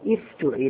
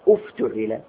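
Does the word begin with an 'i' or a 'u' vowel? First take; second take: i; u. First: The word begins with an 'i' vowel. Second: The word begins with a 'u' vowel. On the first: The speaker calls it wrong. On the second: The speaker calls it right.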